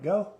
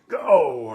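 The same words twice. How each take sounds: First: It is said calmly as a plain command. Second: It is said loudly with a raised voice.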